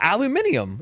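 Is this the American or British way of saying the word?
British. It is said the British way, five syllables. "in the U K and Australia"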